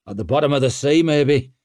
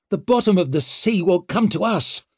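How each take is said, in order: First: Gruff, louder, higher reply; loud grim grunt. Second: High, exasperated growl; raised, irritated retort; growled complaint. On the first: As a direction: grunt it out grimly over the rain. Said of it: "grunted Jin". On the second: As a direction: finish the grumble loudly over the rain. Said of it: "growled Savine". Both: A narrator's reading.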